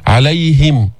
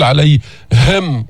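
First: "عليهم" with ه clear but unforced; natural clear haa. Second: "عليهم" very slow with ه pushed out hard; exaggerated wrong reading; overdone haa. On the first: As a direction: sound the ه without effort. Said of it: "صار تكلف ومبالغة". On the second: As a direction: force breath on the ه of "عليهم". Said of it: "تدفع النفس من صدرك بقوة". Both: Shown as a demonstration.

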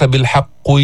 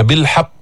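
First: بالحق ending in a rounded "qwi"; wrong rounded qaf. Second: بالحق ending in a less heavy "qi"; doubled ق in بالحق with unrounded lips and clear i; lightened qaf. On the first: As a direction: purse the lips on the ق of بالحق, as the mistake. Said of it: "ما تضم الشفتين". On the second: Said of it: "يقل من تفخيمها". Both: Shown as a demonstration.

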